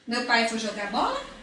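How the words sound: It is said as a direct question.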